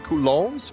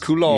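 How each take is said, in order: First: The final S is pronounced. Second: The final S is left silent.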